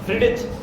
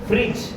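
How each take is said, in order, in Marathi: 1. j आवाजाआधी d आवाज ऐकू येतो. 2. j आवाजाआधी d आवाज ऐकू येत नाही.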